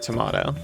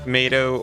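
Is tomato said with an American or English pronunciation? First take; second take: English; American. First: It is said with an English pronunciation. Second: It is said with an American pronunciation. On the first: "the American or English way" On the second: "the American or English way"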